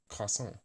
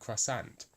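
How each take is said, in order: First: It is said in French with a throaty R. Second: It is said in an English way. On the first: "the real French would be croissant with the the thing at the back of your throat, the the French R" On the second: "If you were going to say that in English, it would be pronounced like croissant"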